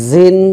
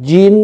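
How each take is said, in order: First: জিন as "zin"; buzzing Z. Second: জিন with a firm, hard j; strong stopped j in জিন. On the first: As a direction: let the z starting জিন buzz, higher and louder. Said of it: "আওয়াজ বের হবে". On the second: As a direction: hit the j of জিন firmly. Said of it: "শক্ত করে". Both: Shown as a demonstration.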